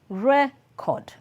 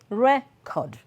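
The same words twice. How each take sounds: First: The stress is on the first syllable. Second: The stress is on the first syllable.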